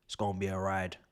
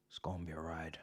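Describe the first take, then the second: First: Said in the usual way. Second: Soft whispered echo of the line; whispered repeat. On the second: Shown as a demonstration. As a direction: breathe it again as a whisper.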